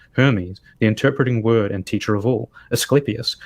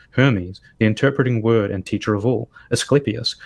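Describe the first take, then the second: No difference in how they are said.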